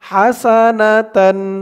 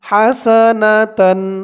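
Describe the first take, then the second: No difference in how they are said.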